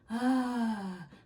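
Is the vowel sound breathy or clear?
breathy. The vowel is airy and breathy. The speaker calls it wrong. "that's breathy"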